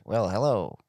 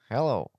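First: Texan drawl on the greeting; a lightly drawled Texan "hello"; Texas accent. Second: Said in the usual way. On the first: Retold or imitated. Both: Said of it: "mie îmi place ăla din Texas".

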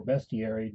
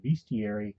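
First: Bestiary with a short e, BESS-tee-airy; alternative pronunciation. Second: Bestiary with a long ee, BEE-stee-airy; alternative pronunciation. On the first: Tutorial host offering viewers the other option, bestiary said as BEST-ee-airy. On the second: Tutorial host offering viewers one option, bestiary said as BEAST-ee-airy. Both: Shown as a demonstration. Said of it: "depending on how you prefer to say that".

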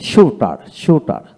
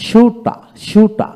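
First: শুটার said slowly with a clear final r; slow শুটার, r sounded at the end; American pronunciation. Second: শুটা drawn out slowly, high, no final r; slow, high শুটা ending open; British pronunciation. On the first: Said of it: "আমেরিকানে". (American উচ্চারণে ধীরে, স্পষ্ট র সহ শুটার) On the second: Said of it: "British". (British উচ্চারণে ধীরে, উঁচু স্বরে র ছাড়া শুটা) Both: Shown as a demonstration.

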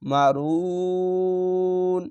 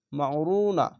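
First: মা রু ন with "ru" stretched long and ending on n; long-drawn stop. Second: Said in the usual way. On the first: Shown as a demonstration. Teacher showing a pause, long রু closing on ন. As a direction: hold the vowel of রু, then close on ন with no final a. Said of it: "তিন আলিফ টেনে পড়তে হবে". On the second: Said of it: "এখানে ওয়াকফ করবেন".

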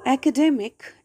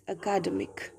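First: "academic" stressed on DEM; correct word stress. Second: "academic" stressed on the second syllable, a-KA-demic; misplaced word stress. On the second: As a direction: say "academic" as uh-KAH-duh-mik. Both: Shown as a demonstration.

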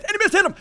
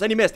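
First: High-pitched squeal; thrilled high exclamation; excited repeat. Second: Said in the usual way. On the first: Real, not acted. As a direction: squeal it in the heat of battle.

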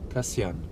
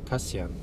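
The two takes are said the same way.

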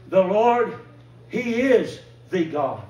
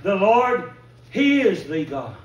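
First: Proclaimed loud, slow and drawn out; crying out. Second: The cry again, loud and slow. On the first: Preacher echoing the crowd's cry, loud and slow. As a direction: call it out like a crowd of believers. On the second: Preacher repeats the people's cry, loud and slow. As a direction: proclaim it once more with the crowd's fervour. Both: Retold or imitated. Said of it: "they cried out".

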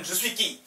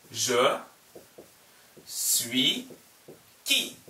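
First: Quick, run-together phrase; fast. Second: Each word set apart with a pause; slow, word by word. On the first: Teacher showing the question said fast. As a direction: say it fast and natural. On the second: Teacher sounding out the question slowly. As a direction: spell it out slowly for students. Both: Shown as a demonstration. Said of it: "빨리 하면".

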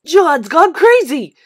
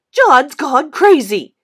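First: Loud, slow schoolyard jeer; bully shouting across the street; taunting yell. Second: Slow, loud sing-song jeer, drawn out; schoolboy bully yelling a taunt. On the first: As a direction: yell it out to mock him, drawn out. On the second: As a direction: keep mocking at full voice. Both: Acted. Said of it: "Spider yelled".

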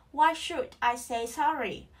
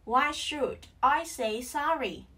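First: Said in the usual way. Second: "Why should", a short pause, then "I say sorry"; split into chunks. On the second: Shown as a demonstration. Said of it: "Tách ra nào". (tách "Why should" và "I say sorry")

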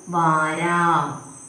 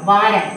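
First: വാരാം stretched out very slowly; very slow spelling. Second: Said in the usual way. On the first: Shown as a demonstration. Teacher sounding out the word for pupils, very slowly. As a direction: draw out each syllable of വാരാം. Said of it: "ആം ചിഹ്നം കൊടുക്കുമ്പം". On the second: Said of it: "വാരാം എന്നെങ്ങനെ പറയും".

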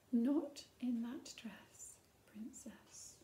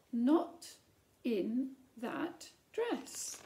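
First: Hushed, slow warning whisper; stern whisper. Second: Louder, very slow, drawn out; firm, loud refusal. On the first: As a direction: breathe the queen's rule almost silently. Queen forbids princess, story read aloud. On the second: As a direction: land the final no like a gavel. Queen's repeated refusal, climax. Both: Acted.

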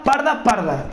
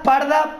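First: Parda, parda with falling stress, less high; repeated parda. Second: Parda thrown up high, stretched for hype; high stressed parda. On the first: Hyping his viewers, parda parda settling down. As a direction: drop the repeated parda back down. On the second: Hyping his viewers, parda shot up high. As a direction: sing out parda much higher. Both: Shown as a demonstration. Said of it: "vamos a liarla parda".

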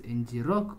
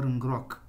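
First: "N G rock" with N and G as separate letters; letters spelled out. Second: "Ngrok" with N and G blended into the word; run together as one word. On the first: Developer unsure of the service's name, spelling out "N G rock". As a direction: say "N G rock" as two letter names plus rock. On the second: Developer trying the service's other name, "Ngrok" as one word. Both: Shown as a demonstration. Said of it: "I don't know to pronounce it".

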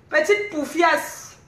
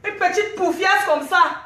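First: Petite poufiasse dragged out slowly; slow mocking insult. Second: Said in the usual way. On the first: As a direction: linger on petite to sneer. (insulte traînée lentement)

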